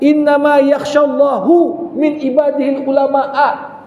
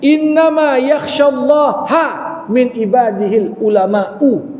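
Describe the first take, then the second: First: Allah ends in -u, ulama ends in -a. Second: Allah ends in -a, ulama ends in -u. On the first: Allah fears the scholars. The speaker calls it wrong. "Kalau terbalik dia baca" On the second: The scholars are the ones who most fear Allah. The speaker calls it right. "itu yang betul"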